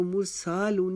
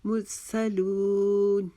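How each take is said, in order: First: मुरसालून with a stretched "saa"; wrong-way demo, "mur-saa-loon"; mispronounced long vowel. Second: Slow chanted मुरसलून, short "sa", long "loon"; measured model recitation of मुरसलून with held "loon"; correct short middle. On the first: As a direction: lengthen the middle of मुरसालून. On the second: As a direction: hold only the last syllable of मुरसलून. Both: Shown as a demonstration. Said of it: "इसको मुरसालून नहीं पढ़ेंगे".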